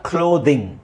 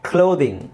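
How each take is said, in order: No difference in how they are said.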